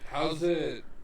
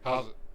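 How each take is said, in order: First: The words are said separately, choppy. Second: The words are rushed together, panicked.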